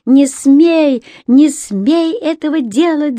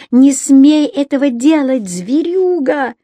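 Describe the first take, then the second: First: High furious shout, not her own voice; frantic yell. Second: High raging shout at the brute; furious yell. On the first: Рони screams at her father to stop, high furious yell. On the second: Рони keeps yelling at her father, high raging shout. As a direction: hurl it at him. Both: Acted. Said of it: "заорала она не своим голосом".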